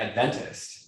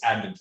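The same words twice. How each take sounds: First: The stress is on the second syllable. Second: The stress is on the first syllable. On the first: An outsider to the church says it. The speaker calls it wrong. "I'm gonna remember that and get it wrong so many times" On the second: A church insider says it. The speaker calls it right. "the inside the correct lingo is Adventist"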